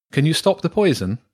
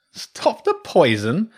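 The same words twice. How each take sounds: First: Said in the usual way. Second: Slow, high mocking echo; amused scorn. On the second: A narrator's reading. Badger echoing Jenny's plea for help, amused and scornful. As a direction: draw the question out as if it were absurd. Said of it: "the badger chuckled".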